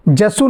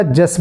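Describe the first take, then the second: First: जसु with a short u at the end; wrong form. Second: जस ending on the s, no u; correct form. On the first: Teacher shows the wrong chant reading, mock mistaken pronunciation. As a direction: let a short u hang after जसु. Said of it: "जसु नहीं बोला जाएगा". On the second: Teacher shows the correct chant reading, clear pronunciation. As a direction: stop जस cleanly on the s. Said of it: "जस बोला जाएगा". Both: Shown as a demonstration.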